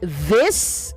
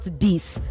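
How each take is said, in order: First: It begins with the tongue between the teeth. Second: It begins without the tongue between the teeth. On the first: The speaker calls it right. "you also say this" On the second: The speaker calls it wrong.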